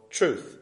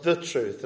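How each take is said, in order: First: Said in the usual way. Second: "the truth" with a full, weighted "the"; stress on THE. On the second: Shown as a demonstration. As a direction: set "the" apart firmly before "truth". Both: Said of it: "but sometimes he speaks of the truth".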